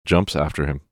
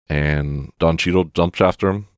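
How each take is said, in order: First: Jumps said with a crisp, careful j; Jumps, not dumps, enunciated; clear jumps. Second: Said in the usual way. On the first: Shown as a demonstration. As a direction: correct the slip, stressing Jumps firmly. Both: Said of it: "Jumps, not dumps".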